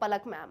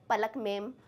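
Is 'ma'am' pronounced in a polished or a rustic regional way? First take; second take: polished; rustic. First: Ma'am is said with a polished, standard vowel. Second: Ma'am is said as a rustic, regional 'mem'. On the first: It is the polite, proper way of addressing her. "मैम is like very अच्छे से बोले तो" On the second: It is the casual, local way of addressing her. "बिल्कुल अपनी देसी भाषा में बुलाना हो तो"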